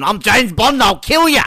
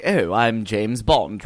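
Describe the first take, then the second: First: Hammed-up, high, loud tough Bond; badly faked Bond, yelped high and loud; Daniel Craig. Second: Drawn-out, understated suave Bond; slowly, lightly putting on a refined English Bond; proper English Bond. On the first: Podcaster mocking the other English Bond, terrible loud impression. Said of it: "that's a terrible Daniel Craig". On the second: Retold or imitated. Podcaster contrasting two English Bonds, proper and unhurried. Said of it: "he's a lot more like".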